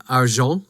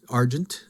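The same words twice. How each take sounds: First: Argent as ar-ZHON, silent t; French pronunciation. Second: Said in the usual way. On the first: Shown as a demonstration. Speaker cites the French word for viewers, argent as ar-zhon. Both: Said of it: "Those of you who know French".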